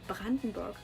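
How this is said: The name is said with German pronunciation. "I'm pronouncing this in a German way"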